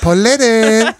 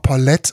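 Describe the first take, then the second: First: The name is said with a North German pronunciation. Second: The name is said with a French-style pronunciation. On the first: The name is treated as German. The speaker calls it right. "so richtig schön norddeutsch" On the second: The name is treated as French. The speaker calls it wrong. "manche sagen auch Paulette. Und ich denke so, nein, das ist nicht französisch"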